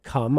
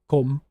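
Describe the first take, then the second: First: It is said in a standard British accent. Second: It is said in a Northern English accent. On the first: "instead of come" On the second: "I might say come"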